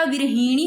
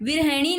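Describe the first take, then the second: First: विरहिणी with a drawn 'hee' in the middle; correct long i. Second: विरहिणी with 'he' in the middle; mispronounced middle vowel. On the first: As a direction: say विरहिणी as 'vir-hee-ni'. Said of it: "विरहिणी होता है". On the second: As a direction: say विरहिणी as 'vir-he-ni'. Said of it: "विरहिणी नहीं होता". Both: Shown as a demonstration.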